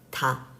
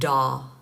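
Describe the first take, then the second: First: The first consonant sounds like an unvoiced t. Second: The first consonant sounds like a voiced d. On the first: The speaker calls it right. "So ta" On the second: The speaker calls it wrong. "Instead of like da, da 아니고. That's very like Americanized sounding"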